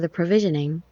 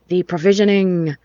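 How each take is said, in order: First: It is read in a plain, ordinary tone. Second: It is announced in a grand, dramatic tone.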